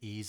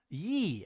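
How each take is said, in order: First: It begins with a plain 'ee' vowel, like ease. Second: It begins with a 'y' sound, like yeehaw. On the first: The speaker calls it right. "it's more of an ease as in ease of use" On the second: The speaker calls it wrong. "with a ye as in yeehaw"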